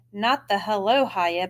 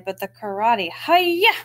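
First: Said in the usual way. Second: "hi-ya" slow, rising and louder; karate shout. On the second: Shown as a demonstration. Amber contrasting a greeting with a karate cry, louder and slow.

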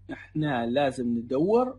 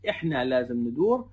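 First: ندور said as "nidewer", with a drawn "ew" in the middle, slowly; teacher demo of ندور as "nidewer"; dialect pronunciation. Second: ندور said as a clipped "nidur" with a plain "u"; teacher demo of ندور as "nidur"; short pronunciation. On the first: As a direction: say ندور the long way, "ni-de-wer". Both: Shown as a demonstration.

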